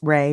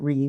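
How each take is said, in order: First: The vowel sounds like the one in day. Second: The vowel sounds like the one in see. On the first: The speaker calls it right. "thank you for reminding me that it's Ray" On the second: The speaker calls it wrong. "not Ree"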